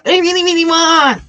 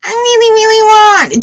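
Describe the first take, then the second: First: High, whiny voice, begging; mock whiny wanting. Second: Much higher, pleading voice; whiny wanting. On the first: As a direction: play someone pleading for the job. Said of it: "I'm not making fun of you". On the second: Shown as a demonstration. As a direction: whine it like a needy kid. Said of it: "Do you see the difference there?".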